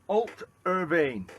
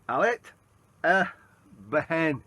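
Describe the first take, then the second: First: The name ends with a 'vain' sound. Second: The name ends with a 'behen' sound. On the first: The speaker calls it right. "it's pronounced" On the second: The speaker calls it wrong. "I'm pronouncing that totally wrong"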